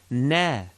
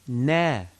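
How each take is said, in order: The two takes are said the same way.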